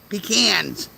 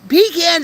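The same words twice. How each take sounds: First: The first syllable does not sound like 'pee'. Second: The first syllable sounds like 'pee'. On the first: The speaker calls it right. "That's the correct pronunciation for it" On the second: The speaker calls it wrong. "pecans are when you pee in cans"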